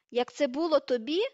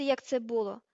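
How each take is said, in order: First: Loud question shooting up at the end; indignant shrieked echo; screeching outrage. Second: Falling, aggrieved statement; mildly heated, defensive; earnest protest. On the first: A narrator's reading. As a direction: screech it back in disbelief. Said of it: "Вона верещала на таких високих регістрах". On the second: Acted. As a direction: end the defence with feeling. Ron defending himself before being interrupted.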